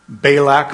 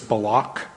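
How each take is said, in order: First: The stress is on the first syllable. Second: The stress is on the second syllable. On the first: "We mostly emphasize the first syllable" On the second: "The emphasis is on the second syllable"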